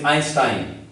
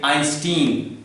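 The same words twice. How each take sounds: First: Einstein said the German way, with sh in stein; the right German way to say Einstein; correct German Einstein. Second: Einstein said the English way, with a plain s in stein; the common wrong way to say Einstein. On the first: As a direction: Einstein as EYN-shtine. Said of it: "The correct one is Einstein". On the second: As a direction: Einstein as EYN-stine, the way some people say it. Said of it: "that's not the correct one". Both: Shown as a demonstration.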